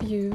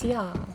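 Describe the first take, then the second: First: The vowel is the usual 'oo' sound. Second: The vowel is changed to an 'ah' sound. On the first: "Instead of you" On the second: "every vowel is going to be the letter A"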